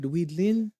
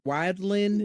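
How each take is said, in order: First: The first syllable sounds like 'weed'. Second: The first syllable sounds like 'wild'. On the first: This is how the name is actually said. "but Weedlin" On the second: This is how the written name looks when read. "when you read it, it's it's like wild wildlin"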